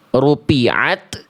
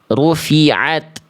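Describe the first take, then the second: First: The middle consonant is a closed p sound. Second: The middle consonant is a breathy f sound. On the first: The speaker calls it wrong. "tidak kita baca" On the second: The speaker calls it right. "tapi kita baca"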